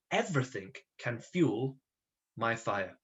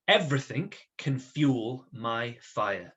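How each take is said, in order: First: Softer, slower second reading of the phrase; soft repeat. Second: Each word spelled out slowly for writing; slow dictation. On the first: Teacher repeating the phrase quietly while the class writes. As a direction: repeat it gently, word by word. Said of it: "So please write that". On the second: Teacher dictating to the class, slow and deliberate. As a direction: dictate it slowly so they can copy. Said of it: "I want you to write this little phrase". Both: Shown as a demonstration.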